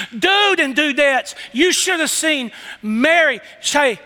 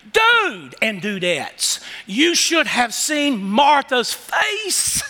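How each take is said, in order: First: Higher and slower, building excitement; same call, lifted higher; excited repeat. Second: Excited aside. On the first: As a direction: say it again bigger. Preacher repeating the aside higher. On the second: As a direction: draw it out like you're letting them in on it. Preacher voicing John's aside. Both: Pretend.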